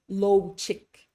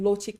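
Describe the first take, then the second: First: The o vowel glides like English 'low'. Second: The o vowel is short, pure and crisp. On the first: The speaker calls it wrong. "they'll say low chick" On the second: The speaker calls it right. "instead of saying lo chick"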